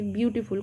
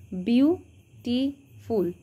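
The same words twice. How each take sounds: First: Said in the usual way. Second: beautiful slowly split into three syllables, বিউ, টি, ফুল. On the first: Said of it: "কটা syllable আছে". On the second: Shown as a demonstration. Teacher counting syllables for students, beautiful said slowly in three separate parts. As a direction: break beautiful apart with a pause after each syllable. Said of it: "তিনটে syllable আছে".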